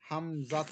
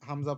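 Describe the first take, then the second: First: The name ends with a 'tu' syllable. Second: The name ends on an open 'a' vowel. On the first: The reading continues without a stop. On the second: The reading stops at this word.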